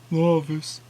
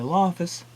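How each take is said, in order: First: It is said in a deep voice. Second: It is said in a normal voice.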